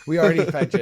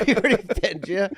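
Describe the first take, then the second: First: Mock high quote. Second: High put-on repeat; high mock quote. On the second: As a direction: echo it in a high voice. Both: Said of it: "is crazy".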